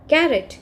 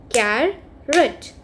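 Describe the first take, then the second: First: Said in the usual way. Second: "carrot" drawn out as car, rot; split into syllables. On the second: Shown as a demonstration. Teacher showing children two syllables, "carrot" split as car, rot. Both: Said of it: "if we have two syllables".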